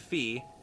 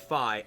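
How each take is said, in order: First: The name ends in an 'ee' vowel. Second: The name ends in an 'eye' vowel. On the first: "F E E" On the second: "F Y E"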